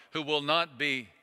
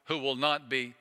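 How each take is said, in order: Both takes have the same delivery.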